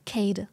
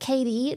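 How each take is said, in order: First: The name ends without a final vowel. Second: The name ends with a sounded final vowel. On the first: This is the German way to read the name. The speaker calls it right. "just Cade. we drop off the name" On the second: This is the English way to read the name. The speaker calls it wrong. "Not Katie, If it was English, I'd probably pronounce it Katie"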